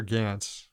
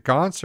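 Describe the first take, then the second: First: "Gantz" with a flat short a, as in "ants"; short-A pronunciation. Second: "Gantz" with an open ah, like "Gahnts"; broad-A pronunciation. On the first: Host offering co-host the other option, "Gantz" with short a. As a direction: say "Gantz" to rhyme with "pants". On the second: Host checking a surname with co-host, "Gantz" said as "Gahnts". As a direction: say "Gantz" to rhyme with "wants". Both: Shown as a demonstration. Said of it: "Is it Gantz or Gantz?".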